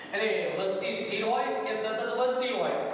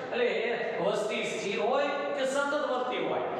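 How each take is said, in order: Both takes have the same delivery.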